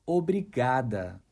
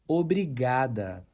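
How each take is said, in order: Both takes have the same delivery.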